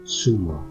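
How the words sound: The first consonant sounds like English s. "twice with a Latin American accent"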